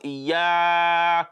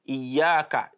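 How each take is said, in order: First: The long vowel is drawn out past two counts. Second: The long vowel is held for two counts. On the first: The speaker calls it wrong. "When you recite as iyaka na'budu, that is wrong" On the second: The speaker calls it right. "It is meant to be just two"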